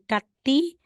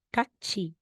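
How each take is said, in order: First: The last syllable is said with a plain t. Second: The last syllable is said with a ch sound. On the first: The speaker calls it wrong. "hindi mo siya babasihing kati" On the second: The speaker calls it right. "magiging katchi"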